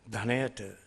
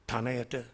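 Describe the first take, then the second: First: The word begins with a breathy 'dh' sound. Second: The word begins with a plain 't' sound. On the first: The speaker calls it right. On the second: The speaker calls it wrong.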